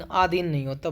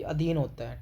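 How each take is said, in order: First: आधीन opened with a long, stressed aa; wrong long first vowel. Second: अधीन opened with a short, light a; correct short first vowel. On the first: Teacher rejecting the misspelling, mispronounced on purpose. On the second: Teacher giving students the right word, careful correct pronunciation. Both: Shown as a demonstration.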